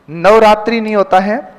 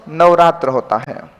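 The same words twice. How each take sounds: First: नवरात्रि with the final i, rising; नवरात्रि ending in a short i, rising; wrong form, rising. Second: नवरात्र without the final i, falling; नवरात्र ending on the r cluster, lower and final; correct form, falling. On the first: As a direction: offer नवरात्रि as the mistake. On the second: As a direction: close firmly on नवरात्र. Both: Shown as a demonstration.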